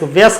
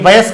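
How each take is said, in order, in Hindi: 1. पहला अक्षर 'vay' हल्का बोला जाता है। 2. पहला अक्षर 'vay' पूरा बोला जाता है। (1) "वयस्क शब्द नहीं होता" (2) "ये वयस्क शब्द होता है, ... पूरा वय आएगा"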